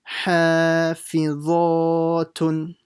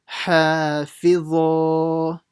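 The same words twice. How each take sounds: The two takes are said the same way.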